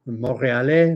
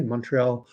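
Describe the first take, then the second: First: Montréal said the French way, mo-ré-al with a rolled R; French pronunciation. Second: Said in the usual way. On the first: Shown as a demonstration. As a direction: say Montréal like a Quebecer, French vowels and R.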